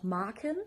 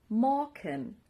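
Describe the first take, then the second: First: The first vowel sounds like an A. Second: The first vowel sounds like an O. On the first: This is a regional form. "Manche sagen auch Marken" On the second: This is the usual form. "ein A wie ein O ausgesprochen"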